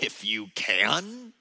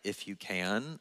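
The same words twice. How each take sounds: First: It is said with a sassy, mocking tone. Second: It is said as a genuine question.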